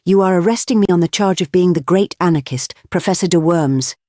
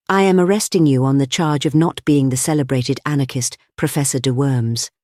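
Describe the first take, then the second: First: Higher-pitched mock German accent, lightly done; raised, emphatic voice, mildly German-accented. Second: Politely measured official reply; understated, civil officialese; civil policeman. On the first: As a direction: declare it with a hint of a German accent. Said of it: "cried in a high German accent". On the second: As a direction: correct him courteously, without raising the voice. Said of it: "he said civilly". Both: A narrator's reading.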